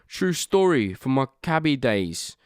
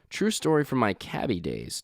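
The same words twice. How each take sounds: First: It is read in a put-on British accent. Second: It is read in his own plain voice.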